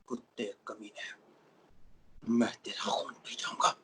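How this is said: It is said in an angry way.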